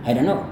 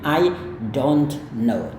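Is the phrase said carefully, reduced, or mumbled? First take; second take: reduced; carefully. First: The words run together in a reduced form. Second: Each word is pronounced clearly and separately. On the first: "dalam kehidupan sehari-hari Anda bisa katakan" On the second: "kalau Anda mau lafalkan kata per kata"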